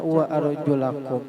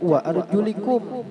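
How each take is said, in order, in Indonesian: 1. Vokal setelah l adalah a. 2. Vokal setelah l adalah i. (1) "lamnya ini dibaca fathah" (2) "dengan baris kasroh"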